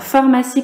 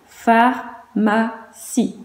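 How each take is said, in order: First: Said in the usual way. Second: "Pharmacie" very slowly as phar, ma, cie with clear gaps; syllable by syllable. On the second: Shown as a demonstration. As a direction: split "Pharmacie" into three separate beats. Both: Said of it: "combien de syllabes?".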